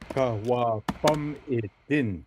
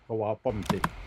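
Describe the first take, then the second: First: Every syllable is said in full. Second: A middle vowel is dropped, shortening the word. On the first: The speaker calls it right. "the proper pronunciation for that word would be" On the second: The speaker calls it wrong. "and not"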